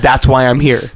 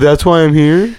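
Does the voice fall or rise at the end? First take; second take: falls; rises. First: It is said as a statement, falling. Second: It is said as a question, rising.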